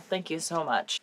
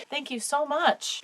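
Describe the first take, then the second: First: Said in the usual way. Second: Choked up. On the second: Real, not acted. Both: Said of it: "I'm getting choked up".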